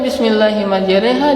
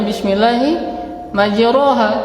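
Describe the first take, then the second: First: The vowel after r sounds like 'e'. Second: The vowel after r sounds like 'o'. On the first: The speaker calls it right. "Jangan sampai bismillahi majreha" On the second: The speaker calls it wrong. "dia baca bismillahi majroha"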